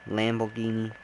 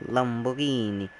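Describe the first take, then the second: No difference in how they are said.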